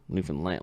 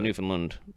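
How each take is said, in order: First: The last syllable is stressed, rhyming with understand. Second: The last syllable is unstressed, not rhyming with understand. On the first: The speaker calls it right. "Like understand Newfoundland. That's how you pronounce it" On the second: The speaker calls it wrong. "then they know you're just saying it wrong"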